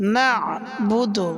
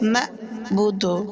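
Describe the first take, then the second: First: The middle consonant is squeezed in the throat. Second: The middle consonant is a plain glottal stop. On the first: The speaker calls it right. "গলার ভিতরে হালকা চাপ দিয়ে আইন উচ্চারণ হবে" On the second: The speaker calls it wrong. "আইনের জায়গায় হামজা পড়ে"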